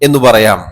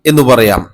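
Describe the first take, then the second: Both takes have the same delivery.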